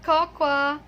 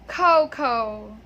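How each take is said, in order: First: "cocoa" drawn out as "kok-waa"; wrong pronunciation. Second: "cocoa" as "KOH-koh", first syllable punched; correct pronunciation. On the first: Teacher tells people what not to say, cocoa mispronounced. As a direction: stretch "cocoa" slowly into "kok-wa". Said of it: "it's not cocoa". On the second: Teacher models the word for learners, cocoa said correctly. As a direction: say "cocoa" with two long oh sounds. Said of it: "the correct pronunciation of this word is". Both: Shown as a demonstration.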